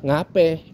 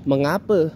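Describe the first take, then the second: First: A shortened form is said, ending in 'e'. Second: The full word is said, ending in 'a'.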